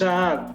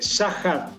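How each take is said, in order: First: It has no rasping h sound between the vowels. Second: It has a rasping h sound between the vowels. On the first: This is how the family says it. "nosotros decimos Saad" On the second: This is how many other people say it. "mucha gente dice Sahat ... por la H, la J"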